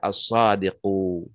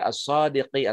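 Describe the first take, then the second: First: The word ends with an u vowel. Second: The word ends with an i vowel. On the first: The speaker calls it right. "tapi dibaca as-sadiqu" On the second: The speaker calls it wrong. "enggak dibaca as-sadiqi"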